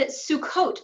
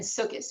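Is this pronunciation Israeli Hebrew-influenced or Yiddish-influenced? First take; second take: Israeli Hebrew-influenced; Yiddish-influenced. First: The word is said the Israeli Hebrew way. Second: The word is said the Yiddish-influenced way. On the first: "Sukkot rather than" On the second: "rather than Sukkos"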